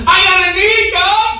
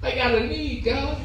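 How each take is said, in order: First: Higher, louder cry to God. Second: Hushed, much softer plea to God; quiet plea. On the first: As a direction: call it out loud and high, pleading. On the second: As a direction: drop almost to a murmur, pleading. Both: Acted. Prayer cry said two ways.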